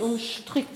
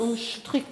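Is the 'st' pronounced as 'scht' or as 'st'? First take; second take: scht; scht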